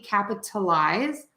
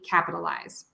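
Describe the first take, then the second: First: The middle consonant is a clear T sound. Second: The middle consonant is a quick D-like flap. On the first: "you can say it with a T" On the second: "I say it with that flap T, which sounds like a fast D"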